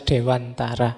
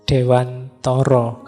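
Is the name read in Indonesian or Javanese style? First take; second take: Indonesian; Javanese. First: The name is read with standard Indonesian pronunciation. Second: The name is read with Javanese pronunciation. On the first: "Meskipun banyak yang membacanya" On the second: "kalau dibaca Jawa ya"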